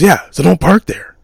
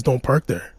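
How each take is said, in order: First: "Yeah, so don't park there" said louder and higher, a blunt mocking warning; mock threat. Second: Said in the usual way. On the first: Neighbour warning the narrator off his parking spot, louder and higher. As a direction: hand the rule back to him as a pointed mock warning on "Yeah". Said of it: "He goes". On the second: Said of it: "He goes, "Yeah, so don't park there".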